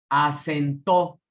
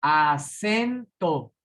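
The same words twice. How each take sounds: First: Acentó with the stress thrown onto the final TÓ; slow Acentó, punching the last syllable; acento en la última. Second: Acento drawn out slowly, stressed on the middle SEN. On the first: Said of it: "Fíjense cómo cambia la acentuación". (Acentó lento, con fuerza en la TÓ final) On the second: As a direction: stretch Acento, leaning hard on SEN. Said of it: "La sílaba tónica es sen". (Acento muy lento, con fuerza en SEN) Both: Shown as a demonstration.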